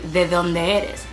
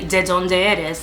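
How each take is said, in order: First: The d sounds are soft, close to th. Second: The d sounds are hard, as in English. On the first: The speaker sounds like a native speaker. The speaker calls it right. "it would be de donde eres" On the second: The speaker sounds like a non-native speaker. The speaker calls it wrong. "it wouldn't be de donde eres"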